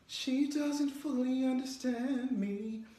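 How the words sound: It sounds inward, as if said to oneself. The speaker is musing privately. "if you're talking to yourself"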